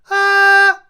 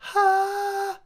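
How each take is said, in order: First: The vowel is clear with little air. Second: The vowel is airy with extra breath.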